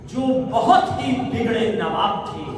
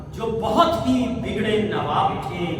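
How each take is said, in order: Both takes have the same delivery.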